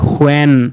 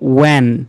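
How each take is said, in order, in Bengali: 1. শব্দটি একটি স্পষ্ট h ধ্বনি দিয়ে শুরু হয়। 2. শব্দটি কোনো h ধ্বনি দিয়ে শুরু হয় না। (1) "এটাকে আমরা বলি সকলেই হোয়েন" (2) "এইচটা সাইলেন্ট লেটার, এই উচ্চারণটা হবে ওয়েন"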